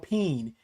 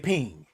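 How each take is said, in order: First: The word ends with a long 'een' sound. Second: The word ends with an 'ing' sound. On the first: This is the standard way to say it. "P E E N, I think is how you say it" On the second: This is how the speaker's community says it. "But we say ping"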